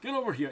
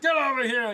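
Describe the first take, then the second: First: It is said flatly, without excitement. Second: It is said with loud excitement.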